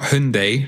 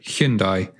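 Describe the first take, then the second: First: The name is said the American way. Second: The name is said the non-American way. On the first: The speaker calls it wrong. "not Hyundai like the Americans say" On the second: The speaker calls it right. "but Hyundai"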